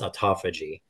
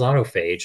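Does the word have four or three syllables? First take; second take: four; three. First: The word ends in -phagy with a final ee sound. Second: The word ends in a single -phage syllable. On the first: The speaker calls it right. "it's autophagy" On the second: The speaker calls it wrong. "It looks like autophage. ... I was like, what the hell is autophage?"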